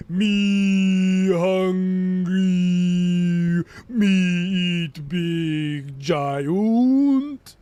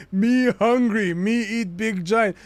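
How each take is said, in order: First: Hugely stretched vowels, loud droning call; Mimir. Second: Slow, louder, lilting put-on voice; slow giant-speak. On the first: Shown as a demonstration. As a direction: drag every vowel out, swooping up at the end. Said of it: "but with extended vowels". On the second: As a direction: play a slow, simple giant serpent. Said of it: "you need to say it in the".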